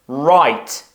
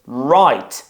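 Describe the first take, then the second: No difference in how they are said.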